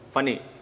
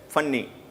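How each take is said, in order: First: The middle n sound is short and single. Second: The middle n sound is doubled and lengthened. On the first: The speaker calls it right. "it conveys a single sound" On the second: The speaker calls it wrong. "it must be used pronounced that way"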